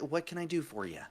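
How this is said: It is said in a British accent. The speaker calls it right.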